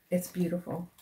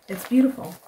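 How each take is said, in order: First: Said in the usual way. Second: Higher, louder praise; gushing. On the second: Real, not acted. Admiring Jude's yarn, gushing. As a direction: gush over it.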